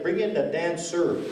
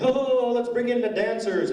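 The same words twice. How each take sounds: First: Said in the usual way. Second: Grand announcement. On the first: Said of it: "It was like". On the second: Retold or imitated. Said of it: "They didn't say".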